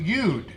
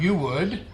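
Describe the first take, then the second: First: The two words are shortened into one syllable. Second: Both words are said in full. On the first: "Turns into you'd" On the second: "Turn. You would"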